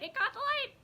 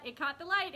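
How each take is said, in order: First: Much higher, louder squeal of delight; excited squeal. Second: Said in the usual way. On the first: Real, not acted. Thrilled at the sparkles on her notebook, high excited squeal. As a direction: repeat it squeaking with joy. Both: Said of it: "Oh, I get so excited".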